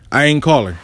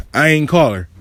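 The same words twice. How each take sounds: The two takes are said the same way.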